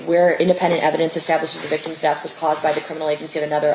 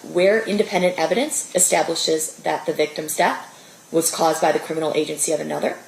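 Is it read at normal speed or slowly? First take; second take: normal speed; slowly. First: It is read at normal speed. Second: It is read more slowly.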